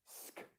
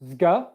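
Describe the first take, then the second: First: The consonants are said without voicing. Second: The consonants are said with voicing. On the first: The speaker calls it right. "there's no voicing in the throat" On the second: The speaker calls it wrong. "It's not zga"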